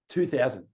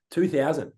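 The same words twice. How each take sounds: The two takes are said the same way.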